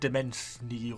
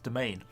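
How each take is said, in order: First: It is said with three syllables, sounding the s. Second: It is said with two syllables, no extra sounds. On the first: The speaker calls it wrong. "I've always been trying to pronounce it Demensny or something like that" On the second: The speaker calls it right. "It's actually supposedly pronounced Domain"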